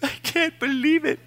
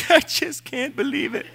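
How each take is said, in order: First: High wailing whimper, imitating his own weeping; mock sobbing. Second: High wailing whimper, laughing at himself; mock sobbing with a laugh. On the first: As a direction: squeeze it out in a high crying voice. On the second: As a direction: play up a tearful wail, breaking into laughter. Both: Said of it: "who heard me mourn".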